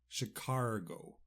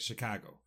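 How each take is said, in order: First: It is said with an Irish-style pronunciation. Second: It is said with the standard American pronunciation. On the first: "in Ireland, we like to say Chicago" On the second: "I do believe the pronunciation, pronunciation is Chicago"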